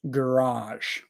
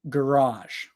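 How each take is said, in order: First: It is said in an American accent. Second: It is said in an American accent.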